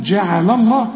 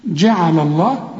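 First: جعل الله with a thin, light ل; جعل الله, keep the ل light; correct thin reading. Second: جعل الله read slowly, wrong way; جعل الله drawn slowly as the mistake; mock wrong recitation. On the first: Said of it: "رقق برضو". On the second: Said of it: "ما تقولش جعل الله". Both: Shown as a demonstration.

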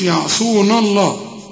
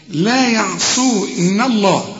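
First: يعصون الله with the نون thickened; wrong heavy nun. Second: لا يعصون الله slow with a light نون; correct recitation. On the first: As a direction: voice the faulty يعصون. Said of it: "فخمت منك، وده خطأ". (النطق الغلط بنون مفخمة) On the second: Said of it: "النون برضو هنا مرققة". (لا يعصون الله بنون مرققة) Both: Shown as a demonstration.

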